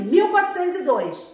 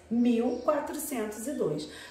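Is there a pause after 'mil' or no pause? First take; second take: no pause; pause. First: It runs on without any pause after mil. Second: There is a short pause after mil.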